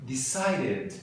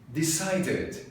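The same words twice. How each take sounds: Both takes have the same delivery.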